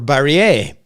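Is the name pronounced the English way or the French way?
French. The name is said with French pronunciation.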